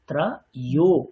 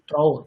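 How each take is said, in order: First: The second syllable is a 'yo' sound. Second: The second syllable is a plain 'o' sound. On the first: The speaker calls it right. "অন্তঃস্থ ওকারের যে ধ্বনি" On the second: The speaker calls it wrong. "আপনি যখন বলছিলেন ত্র ও দশ"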